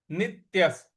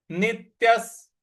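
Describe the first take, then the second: First: Said in the usual way. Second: नित्यस with the half त hit hard; teacher marking the stress in नित्यस. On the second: Shown as a demonstration. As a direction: lean on the त of नित्यस, ending in स. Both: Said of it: "आधा त है उस पर आघात देना है".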